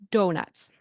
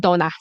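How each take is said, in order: First: The final T and S sounds are pronounced. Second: The final T and S sounds are dropped. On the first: The speaker calls it right. "So the T and the S. Be careful. Do nuts" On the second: The speaker calls it wrong. "I hear donas"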